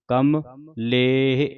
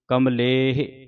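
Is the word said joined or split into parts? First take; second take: split; joined. First: The word is split with a break between parts. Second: The word is said joined without any break. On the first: "ਵੱਖਰਾ ਵੱਖਰਾ ਕਰਕੇ ਆਪ ਜੀ ਨੂੰ ਸਮਝਾ ਰਹੇ ਹਾਂ" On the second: "ਇਸ ਤਰ੍ਹਾਂ ਪਾਠ ਇਕੱਠਾ ਹੀ ਹੈ"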